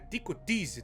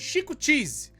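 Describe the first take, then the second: First: The first word begins with a T sound. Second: The first word does not begin with T. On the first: The speaker calls it right. "é com T, as duas pronúncias com T" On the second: The speaker calls it wrong. "Eu sei que eu falei a pronúncia errada"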